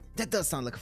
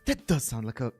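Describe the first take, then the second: First: It is said in the character's put-on voice. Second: It is said without the character's put-on voice. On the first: The speaker calls it right. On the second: The speaker calls it wrong.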